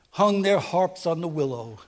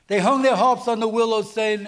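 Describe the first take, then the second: First: Said in the usual way. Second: Louder and higher, driving the phrase home; preaching emphasis. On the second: Shown as a demonstration. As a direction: proclaim "They hung their harps on the willow" with full force.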